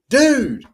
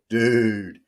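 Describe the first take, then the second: First: It is said in a friendly greeting tone. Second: It is said in a reproachful, scolding tone. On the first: The speaker is saying hello. "dude, hi" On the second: The listener made a mistake. "dude, you messed up"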